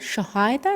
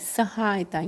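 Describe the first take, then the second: First: The word begins with a 'sh' sound. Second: The word begins with an 's' sound. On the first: The speaker calls it wrong. "नहीं" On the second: The speaker calls it right. "यहाँ पर हमारा स sound आएगा"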